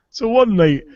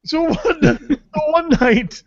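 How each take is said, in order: First: Said in the usual way. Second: Giggling through the words, much higher; words breaking into laughter; laughing. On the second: Real, not acted. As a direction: still laughing as he tries to start the story.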